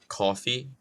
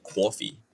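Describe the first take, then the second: First: "coffee" with a lightly rounded first vowel; "coffee" as cawfee, kept mild; own regional pronunciation. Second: "coffee" as thick cwaw-fee; overdone East Coast "coffee", rounded aw; exaggerated regional pronunciation. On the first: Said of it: "Unless I'm saying, like, coffee". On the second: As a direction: add a w-glide to "coffee": kwawfee. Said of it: "I don't say, like, coffee". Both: Shown as a demonstration.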